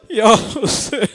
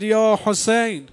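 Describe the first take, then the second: First: Louder, higher wailing cry; second cry, rising into a lament; anguished cry. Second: Slow, drawn-out call, a bit louder; first of three mournful cries; crying out Hussein. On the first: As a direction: let the name break out in a wail. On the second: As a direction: call out the name slowly in grief. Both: A narrator's reading. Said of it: "سه بار فریاد زد".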